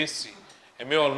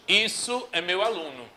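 First: "esse" said low and soft as the right form; "meu" gets the stress, gentle correct version; correct pronoun said. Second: "isso" stressed as the wrong choice; wrong pronoun said. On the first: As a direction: quietly offer "esse é meu aluno". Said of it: "Eu tenho que dizer". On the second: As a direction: lean on "isso" in "isso é meu aluno" to show the error. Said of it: "eu não devo dizer". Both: Shown as a demonstration.

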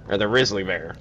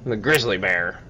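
First: "grizzly" without its g, as "rizzly"; "grizzly" turned into "rizzly"; altered pronunciation. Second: Said in the usual way. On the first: Shown as a demonstration. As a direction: drop the G from "grizzly", saying "rizzly". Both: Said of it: "Or the grizzly bear".

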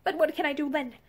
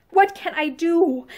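First: Understated, helpless appeal; breaking out helplessly. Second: Slow, drawn-out helpless question; helpless outburst. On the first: Troubled woman appealing to her lover, restrained outburst. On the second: Troubled woman repeats her appeal to her lover, slow desperation. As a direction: press the question harder, stretching it out. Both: A narrator's reading. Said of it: "then she broke out again".

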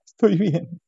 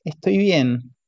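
First: Higher, choked martyred "Estoy bien"; lightly acted martyred wife. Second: Choked, martyred "Estoy bien"; a hint of a martyred wife. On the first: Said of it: "con voz cortada, con tono de mártir". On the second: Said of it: "Lo dice con voz cortada, con tono de mártir".

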